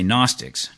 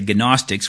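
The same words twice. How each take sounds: First: It is said with an English-style pronunciation. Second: It is said with a Greek-style pronunciation. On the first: The speaker calls it right. "when we anglicize it, we say Gnostics" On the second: The speaker calls it wrong. "we don't say gnostics"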